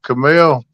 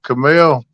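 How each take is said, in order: First: The word is said the southern way. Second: The word is said the southern way.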